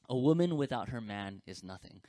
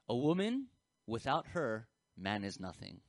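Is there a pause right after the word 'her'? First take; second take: no; yes. First: It flows with no pause after 'her'. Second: There is a pause right after 'her'. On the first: A woman is nothing without her man. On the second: A man is nothing without a woman. "if you add punctuation"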